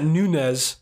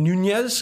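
First: The middle consonant is a plain n sound. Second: The middle consonant is a palatal ny sound. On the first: The speaker calls it wrong. "I know it's not Nunez" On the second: The speaker calls it right. "You like how I pronounced that double N"

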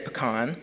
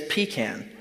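First: The first syllable does not sound like 'pee'. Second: The first syllable sounds like 'pee'. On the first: The speaker calls it right. "I say it correctly. I say pecan" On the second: The speaker calls it wrong. "a pecan is what we use the restroom in"

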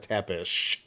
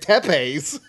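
First: The name ends with an 'sh' sound. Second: The name ends with an 's' sound. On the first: "this show pronouncing his name as Vlad Dracula Tepish" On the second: "I've been saying Tepes my whole life"

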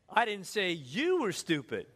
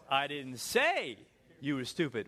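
First: The stress is on the word you. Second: The stress is on the word say.

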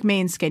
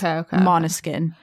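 First: The name is given a plain anglicized reading. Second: The name is given its native pronunciation. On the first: The speaker calls it wrong. "It looks like" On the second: The speaker calls it right. "but it's pronounced"

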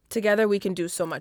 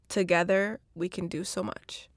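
First: It is said in the speaker's natural voice. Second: It is said in a put-on, African-ish sexy voice.

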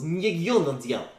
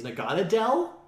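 First: The name is said with strong 'y' glides. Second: The name is said plainly without 'y' glides. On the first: "I was acting as Gentian, so it was Nyigyunadel" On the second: "That's how you say its name"

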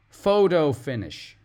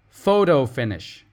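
First: The middle T sounds like a soft D. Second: The same.

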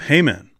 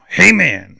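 First: It is said in a plain, neutral accent. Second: It is said in a Southern preacher accent.

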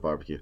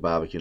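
First: It is said with a standard accent. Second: It is said with a New England accent. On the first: The speaker calls it right. "not barbecue" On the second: The speaker calls it wrong. "I just said barbecue"

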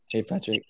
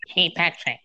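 First: It is said in his own normal voice. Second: It is said in a SpongeBob impression voice.

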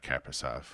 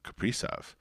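First: The name is said the way fans say it. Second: The name is said the way its owner says it. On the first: This is the common version fans use. The speaker calls it wrong. "no, I'm not Kaprizov" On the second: This is how the player says his own name. The speaker calls it right. "I'm Kaprizov"

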